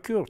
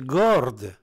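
First: The word begins with a hard k sound. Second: The word begins with a hard g sound. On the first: This is the form that came through Arabic. The speaker calls it wrong. "c'est pas kurde" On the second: This is the original form, meaning champion or hero. The speaker calls it right. "c'est gorde"

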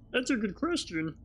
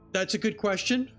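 First: It is said in a Marvin the Martian voice. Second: It is said in his normal voice.

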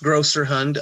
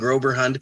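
First: The middle consonant is an s sound. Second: The middle consonant is a b sound. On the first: The speaker calls it right. "It's pronounced Grosserhund" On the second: The speaker calls it wrong. "I've been saying Groberhund because it's a freaking bee"

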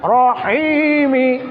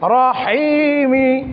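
The two takes are said the same way.

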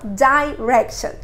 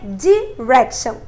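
First: The first syllable has an 'eye' vowel. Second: The first syllable has a short 'ih' vowel. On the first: "não direction" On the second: "no inglês americano tem som de I. Aí ficaria direction"

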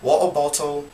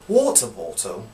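First: The T sounds are dropped in a British accent. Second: The T sounds are pronounced in a British accent.

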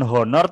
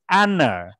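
First: The word begins with an audible h sound. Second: The word begins directly with a vowel sound. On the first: The speaker calls it wrong. "ini juga bukan honor" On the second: The speaker calls it right. "tapi honor"

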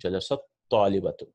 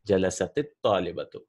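First: No vowel links the two words. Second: A short i vowel links the two words. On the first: The speaker calls it wrong. "we'll not have a good clarity" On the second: The speaker calls it right. "So it happens is we give a kasra"

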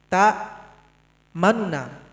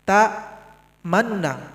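First: The first nun syllable is brief and rushed. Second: The same.

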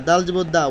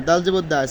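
The two takes are said the same way.

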